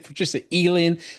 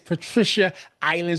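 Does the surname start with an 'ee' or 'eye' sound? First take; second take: ee; eye. First: The surname starts with an 'ee' sound. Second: The surname starts with an 'eye' sound. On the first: The speaker calls it wrong. "some people, Coach A B, will say Patricia Eland" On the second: The speaker calls it right. "but it's island. So make sure you guys know"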